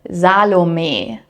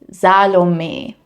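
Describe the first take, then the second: First: The final E is softly pronounced. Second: The final E is softly pronounced.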